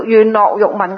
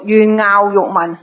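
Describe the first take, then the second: First: 樂 said as "lok" in 願樂欲聞; 願樂欲聞 with 樂 read lok. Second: 樂 said as "ngaau" in 願樂欲聞; 願樂欲聞 with 樂 read ngaau. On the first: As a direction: pronounce 樂 in 願樂欲聞 like lok, not ngaau. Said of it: "如果你聽到有人讀". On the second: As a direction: pronounce 樂 in 願樂欲聞 like ngaau, not lok. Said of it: "如果你聽到人讀". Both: Shown as a demonstration.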